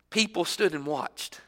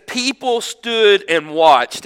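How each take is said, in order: First: Softer, letting it sink in; quiet reflective repeat. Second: Each word slowed and weighted, louder; slow emphatic reading. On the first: Preacher echoing the verse to the congregation, hushed. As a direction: say it back softly to yourself. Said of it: "easy one just to gloss right over". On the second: Preacher reading scripture to the congregation, slow and emphatic. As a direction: let the words land slowly and heavily. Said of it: "can you imagine that?". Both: Shown as a demonstration.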